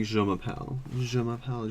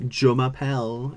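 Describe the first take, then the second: First: Je m'appelle with a soft French J; softer zh sound in Je m'appelle; proper French pronunciation. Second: Je m'appelle with a hard English J; schoolkid's anglicised Je m'appelle; mispronounced French. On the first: Shown as a demonstration. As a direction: say Je m'appelle as "zhuh ma-pel". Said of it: "get with it". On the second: Retold or imitated. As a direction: say Je m'appelle as "juh ma-pel". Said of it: "Don't pronounce the juz".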